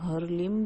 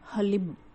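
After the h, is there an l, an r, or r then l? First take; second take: r then l; l. First: An r then l sound follows the h. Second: An l sound follows the h. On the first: The speaker calls it wrong. "कई लोग हरलिम भी करते हैं" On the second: The speaker calls it right. "इसका सही उच्चारण है"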